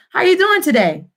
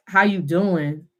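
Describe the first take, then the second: First: "How you doing today?" lifted high in a lively question tune; questioning intonation. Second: "How you doing?" low and slow, with no questioning lift; un-questioning intonation. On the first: Teacher modelling a question, "How you doing today?" pitched high. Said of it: "fluctuate and go up". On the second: Teacher showing weird asking, "How you doing?" without the question tune. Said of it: "It would be weird if I'm like". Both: Shown as a demonstration.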